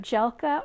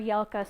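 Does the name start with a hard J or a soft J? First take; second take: hard J; soft J. First: The name starts with a hard J sound. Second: The name starts with a soft J sound. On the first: "a hard J" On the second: "a soft J"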